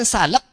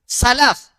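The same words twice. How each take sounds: First: The word ends with a p sound. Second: The word ends with an f sound. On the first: It names an ointment for skin disease. The speaker calls it wrong. "Jangan salaf, Pak. Kalau salaf itu ujungnya nosib" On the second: It names the earliest generations of the community. The speaker calls it right. "mahrotnya gigi bagian atas bertemu dengan gigi eh, bibir bagian bawah"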